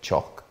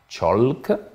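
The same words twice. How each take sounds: First: The L sound is left silent. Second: The L sound is clearly pronounced. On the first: The speaker calls it right. "ça fait chalk" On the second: The speaker calls it wrong. "donc je ne dirai pas chalk"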